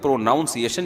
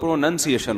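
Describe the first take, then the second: First: The second syllable sounds like 'noun'. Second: The second syllable sounds like 'nun'. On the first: The speaker calls it wrong. "प्रोनाउन तो ठीक है" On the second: The speaker calls it right. "प्रोनंसिएशन होता है"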